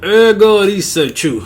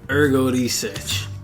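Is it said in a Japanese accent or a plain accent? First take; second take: Japanese; plain. First: It is said with a Japanese-style pronunciation. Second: It is said in the speaker's ordinary accent.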